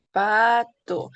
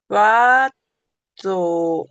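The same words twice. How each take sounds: First: Said in the usual way. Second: "Pato" stretched slowly and said louder; drawn-out demo word. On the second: Shown as a demonstration. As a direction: draw out "Pato" slowly and loudly, each sound clear. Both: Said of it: "El fono es el sonido de cómo suena".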